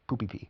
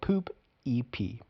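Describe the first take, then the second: First: The letters are said fast and run together. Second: The letters are said slowly and kept apart.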